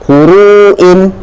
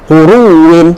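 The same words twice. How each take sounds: First: It has a glottal stop after the long u. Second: The w sounds merge into one doubled w. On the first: "hamzah yang berada di hujung" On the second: "kemudian kita idghamkannya"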